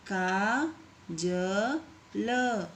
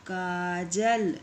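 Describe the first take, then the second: First: Kajal stretched very slowly, syllable by syllable. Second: Said in the usual way. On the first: Shown as a demonstration. Teacher to pupils, sounding out Kajal very slowly. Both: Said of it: "इस तरीके से आपको शब्दों को पढ़ना है".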